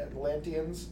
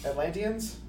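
First: "Atlanteans" finally said whole after false starts, falling at the end; Atlanteans sounded out. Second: "Atlanteans?" asked back with a rising, doubtful tune; unsure Atlanteans. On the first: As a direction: land "Atlanteans" flatly after stumbling. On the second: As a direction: check "Atlanteans" with an unsure rise. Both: Real, not acted. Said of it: "There was some war in Atlantis between the Atl".

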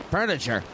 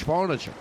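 First: Said in the usual way. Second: "furniture" with a broad Boston first vowel; mock Kennedy Boston accent. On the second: Comic as president naming "furniture" in a mock Boston accent. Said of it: "John F. Kennedy".

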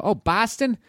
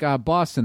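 First: "Boston" with a flat "a", like "Baston", pitched high; high mock echo of "Boston" as "Bah-ston"; mock mispronounced Boston. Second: "Boston" with a rounded "aw", like "Bawston"; native Boston vowel. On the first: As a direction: imitate an outsider saying "Boston" as "Baston". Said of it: "Did I say it like that?". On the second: Shown as a demonstration. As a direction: say "Boston" as a local would, "Baw-ston". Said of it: "It's B A W".

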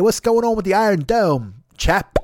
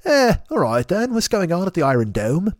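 First: Higher-pitched, hammed-up Cockney; chummy mock Cockney, pitched up; Cockney accent. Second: Hammed-up British spy with a stiff upper lip; badly faked British accent; British spy show. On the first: Shown as a demonstration. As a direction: put on a stagey Cockney voice. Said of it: "normally I can do Cockney accent". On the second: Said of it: "sounds like some British spy show".

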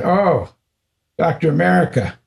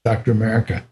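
First: High, playful teasing call. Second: Said in the usual way. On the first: Retold or imitated. Guru teasing his disciple, high and playful. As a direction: needle him like a fond guru. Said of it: "he started teasing me". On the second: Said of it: "First time he ever said".

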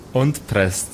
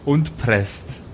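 The two takes are said the same way.

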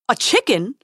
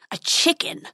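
First: Squeaking. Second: Snarling dragon. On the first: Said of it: "squeaked the prince". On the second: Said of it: "snarled the dragon". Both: Acted.

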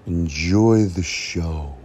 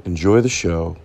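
First: Drawn-out announcer enjoy the show; slow it way down, grandly; slow dramatic. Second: Said in the usual way. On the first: Pretend.

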